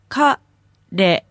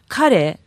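First: It is said slowly, broken into syllables. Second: It is said quickly as one word.

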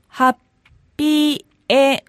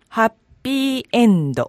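First: It is said slowly, broken into syllables. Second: It is said quickly as one smooth word.

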